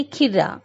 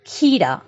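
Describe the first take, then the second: First: खिर्रा said with a quick short i and a doubled r; short wrong i. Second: खीरा with the खी drawn out long; long ee in kheera. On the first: Teacher showing pupils the wrong short i in खिर्रा. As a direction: clip the i of खिर्रा short and rushed. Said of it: "बहुत जल्दी में हमने बोला". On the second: Teacher showing pupils the long ee in खीरा. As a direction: stretch the ee of खीरा. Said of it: "खी बोलते समय थोड़ा सा लंबा खींचा". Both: Shown as a demonstration.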